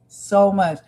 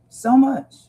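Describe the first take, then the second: First: Said in the usual way. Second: "So much." pushed out louder and higher, stressing "much"; emphatic repeat. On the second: Real, not acted. Streamer overwhelmed by the news, telling viewers: emphatic "So much.". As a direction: lean hard on "much" in "So much.".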